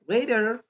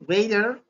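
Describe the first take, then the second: First: It is said with an American accent. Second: The same.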